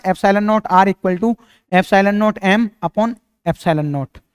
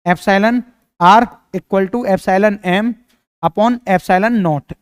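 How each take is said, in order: First: Slow dictation of "Epsilon naught R equal to epsilon naught M upon epsilon naught" with naught after each epsilon; the wrong way, read out slowly. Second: Slow dictation of "Epsilon R equal to epsilon M upon epsilon naught" without naught on R and M; the corrected way, dictated slowly; right reading. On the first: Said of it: "नहीं, नहीं, नहीं, इसको ऐसे नहीं पढ़ेंगे". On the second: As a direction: read "epsilon R" and "epsilon M" slowly and clearly. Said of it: "ऐसे पढ़ेंगे". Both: Shown as a demonstration.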